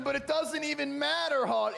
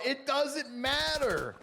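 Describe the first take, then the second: First: Loud, high hype call; excited. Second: "doesn't" stretched, slow and loud; stress on doesn't. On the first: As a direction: shout it over the action. Hyped call, line repeated. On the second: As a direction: drag out "It doesn't matter" slowly, hitting "doesn't". Repeated, drawn out slowly. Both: Real, not acted.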